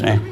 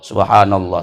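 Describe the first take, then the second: First: It is said fast with syllables run together. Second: It is said slowly with every syllable clear. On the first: The speaker calls it wrong. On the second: The speaker calls it right.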